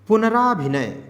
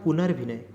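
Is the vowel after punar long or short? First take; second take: long; short. First: A long aa follows punar. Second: No long aa follows punar. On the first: The speaker calls it wrong. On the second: The speaker calls it right.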